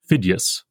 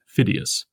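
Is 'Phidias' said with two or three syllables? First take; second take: two; three. First: A vowel is glided, giving two syllables. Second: Every vowel is sounded, giving three syllables. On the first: The speaker calls it right. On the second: The speaker calls it wrong.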